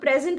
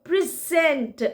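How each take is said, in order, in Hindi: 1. ज़ोर पहले अक्षर पर है। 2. ज़ोर दूसरे अक्षर पर है। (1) "सिर्फ प्रेजेंट बोलेंगे तो वो तो प्रेजेंट वाला है" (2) "प्री छोट कम हो जाता है, सेंट पे हम ज्यादा एम्फेसाइज करते हैं"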